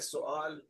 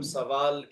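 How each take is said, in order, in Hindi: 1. यह फ़ारसी तरीके से बोला जाता है। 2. यह रोज़मर्रा की उर्दू तरीके से बोला जाता है। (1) "पर्शियन प्रोनाउंसिएशन उसका है" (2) "जिसे हम सवाल कहते हैं"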